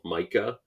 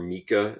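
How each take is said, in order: First: The first vowel is a hard I sound. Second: The first vowel is a soft I sound.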